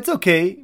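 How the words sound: It sounds pleased, like the speaker likes it.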